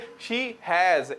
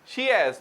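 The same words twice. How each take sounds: First: It is said as two separate full words. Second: It is merged into one contracted syllable. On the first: The speaker calls it wrong. "ना के" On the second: The speaker calls it right. "हैज में भी शी हैज"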